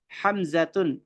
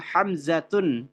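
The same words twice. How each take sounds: No difference in how they are said.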